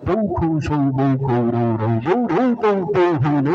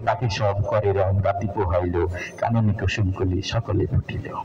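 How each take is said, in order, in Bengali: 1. প্রতিটি অক্ষরে একই 'au' স্বর ব্যবহার হয়। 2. অক্ষরগুলো তাদের স্বাভাবিক, ভিন্ন ভিন্ন স্বর ব্যবহার করে। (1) "ঔকার আবিষ্কার হইল, আমার কবিতা হয়ে গেল" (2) "সবকিছু যখন আবিষ্কার হয়ে গেল, আমার কবিতাটাও পরিপূর্ণ হয়ে গেল।"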